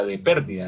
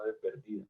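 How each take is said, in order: First: Pérdida stressed on the first syllable, PÉR-di-da; correct stress. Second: Pérdida said wrongly as per-DÍ-da, stress on the second syllable. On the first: Teacher to class, showing the correct pérdida with a stressed É. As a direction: say pérdida with the weight on the É. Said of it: "Con tilde en la E". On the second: Teacher to class, showing the wrong stress in pérdida, said softly. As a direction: model the mistake in pérdida with the middle syllable stressed. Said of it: "no de pérdida". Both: Shown as a demonstration.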